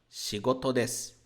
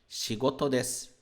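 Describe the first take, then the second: Both takes have the same delivery.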